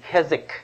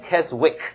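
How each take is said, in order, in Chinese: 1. "W" 音在中间不发音。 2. "W" 音在中间发音。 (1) "是念Keswick 啊" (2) "不要读W 哈，不是念Keswick 啊"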